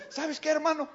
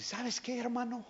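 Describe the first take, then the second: First: Higher take. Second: Quiet take. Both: Retold or imitated. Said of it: "Así me dijo".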